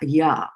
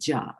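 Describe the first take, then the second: First: The syllable begins with a 'y' sound. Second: The syllable begins with a 'j' sound. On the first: The speaker calls it right. "Y is pronounced as a y, ya" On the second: The speaker calls it wrong. "and not as a J, ja"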